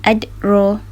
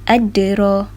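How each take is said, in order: First: The d is stopped flat with no echo. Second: The d is released with an echoing bounce. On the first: The speaker calls it wrong. "Kalau tidak melantun, bunyinya seperti adro" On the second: The speaker calls it right. "Kalau kita bunyi melantun"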